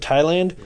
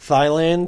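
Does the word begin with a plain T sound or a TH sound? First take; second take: T sound; TH sound. First: It begins with a plain T sound. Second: It begins with a TH sound, as spelled. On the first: The speaker calls it right. "instead of Thailand" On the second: The speaker calls it wrong. "he's saying Thailand, and it's spelled with a T-H"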